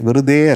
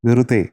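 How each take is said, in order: First: The final syllable is said hard and forceful. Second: The final syllable is said soft and gentle. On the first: The speaker calls it wrong. "Pronunciation വെറുതെ അല്ല" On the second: The speaker calls it right. "ആ തേ എന്നുള്ളത് soft ആയിരിക്കണം"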